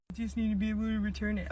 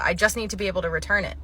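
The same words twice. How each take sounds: First: Quieter, fast, in a put-on customer voice; softer mock voice. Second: Said in the usual way. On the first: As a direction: mutter it back mockingly. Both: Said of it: "repeats the line differently".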